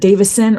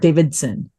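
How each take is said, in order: First: The name has no d sound before s. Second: The name has a d sound before s. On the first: The speaker calls it right. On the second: The speaker calls it wrong.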